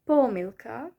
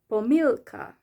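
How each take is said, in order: First: The stress is on the first syllable. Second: The stress is on the second syllable. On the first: "the first one has the stress on the first syllable" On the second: "the other one has the stress on the E"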